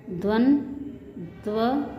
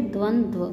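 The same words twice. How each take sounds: First: द्वंद्व very slowly as "dvan ... dva"; split syllables. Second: Said in the usual way. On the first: Shown as a demonstration. Teacher breaking down the conjunct, द्वंद्व split slowly. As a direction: pause inside द्वंद्व. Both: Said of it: "इसको बोलेंगे".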